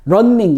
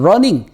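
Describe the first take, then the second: First: The n sound is doubled across both syllables. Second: The n sound is said only once. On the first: The speaker calls it wrong. "두 개가 같이 센 발음으로 돼야 되느냐 넌 런닝 이런 식으로" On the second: The speaker calls it right. "러닝 이렇게 하나 있을 때하고 똑같이 되는 거죠"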